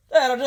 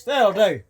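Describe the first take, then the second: First: Higher, sharper command to the dog. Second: Firm dog command. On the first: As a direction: firmer second warning. Telling dog to stop, higher. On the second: Telling dog to stop. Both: Real, not acted.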